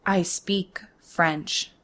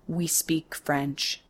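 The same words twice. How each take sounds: First: "I" stressed, slow and firm; slow, leaning hard on "I" to claim her French. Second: "we" stressed, slow and dropping softer; slow snorting reply leaning on "we". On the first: Cashier insisting to rude customer, stress on "I". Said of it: "I thicken my accent". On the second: Rude customer lecturing the cashier, stress on "we". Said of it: "he snorts in French". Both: Acted.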